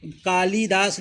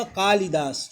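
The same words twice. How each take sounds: First: कालिदास with a long "ee", kaa-lee-daas; wrong long vowel. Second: कालिदास with a short "li", kaa-li-daas; short i vowel. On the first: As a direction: stretch the "li" of कालिदास. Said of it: "कालिदास नहीं होगा". (कालिदास में बड़ी "ई" खींचकर) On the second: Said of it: "छोटी की मात्रा ल में होगी". (कालिदास में छोटी "इ" की मात्रा) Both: Shown as a demonstration.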